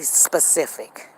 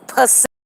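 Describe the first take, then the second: First: The word begins with a clear s sound. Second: The first s is dropped, starting with p. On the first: The speaker calls it right. "they don't say specific" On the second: The speaker calls it wrong. "they say Pacific, like the Pacific Ocean"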